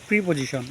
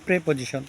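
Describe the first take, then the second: First: The first vowel sounds like 'ee'. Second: The first vowel sounds like 'eh'. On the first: The speaker calls it wrong. "অনেকে ভুলবশত উচ্চারণ করেন" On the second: The speaker calls it right. "সঠিক উচ্চারণটা হবে"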